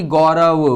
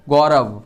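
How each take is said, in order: First: Said in the usual way. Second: "गौरव" said as gau-rav, no "a" sound after the final v; pronunciation demo. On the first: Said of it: "उसमें ए का उच्चारण नहीं होता है". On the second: Shown as a demonstration. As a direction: end "गौरव" cleanly on the v, falling. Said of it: "वहाँ पे आ का उच्चारण नहीं है". ("गौरव" अंत में बिना अ के, साफ़ व पर रुकें)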